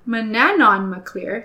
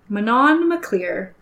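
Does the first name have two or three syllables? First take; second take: three; two. First: The first name is said with three syllables. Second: The first name is said with two syllables. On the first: The speaker calls it right. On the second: The speaker calls it wrong.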